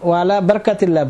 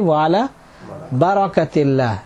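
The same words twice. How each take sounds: First: No vowel is heard between r and k. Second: A short a vowel follows the r sound. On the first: The speaker calls it wrong. "এটা আমাদের ভুল" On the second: The speaker calls it right. "রার উপরে জবর"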